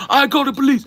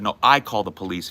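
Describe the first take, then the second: First: High, loud screamed threat in a put-on Asian accent; shrieking caricature of an angry customer's Asian accent; mock thick Asian accent. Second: Said in the usual way. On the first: Barista imitating customer threatening police, screaming in Asian accent. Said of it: "with a very thick accent".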